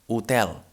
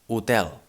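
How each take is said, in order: Both takes have the same delivery.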